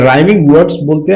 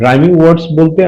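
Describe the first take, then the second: No difference in how they are said.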